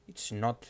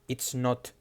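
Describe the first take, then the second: Both takes have the same delivery.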